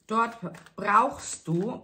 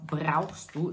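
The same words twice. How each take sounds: First: "brauchst du" drawn out slowly and leaned on; stress on brauchst du. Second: Said in the usual way. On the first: Shown as a demonstration. Card reader telling the Libra listener she needs help, "brauchst du" stressed slowly. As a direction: press hard on "brauchst du", slow and weighty. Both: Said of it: "Betonung auf brauchst du".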